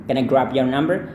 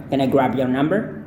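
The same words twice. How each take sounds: The two takes are said the same way.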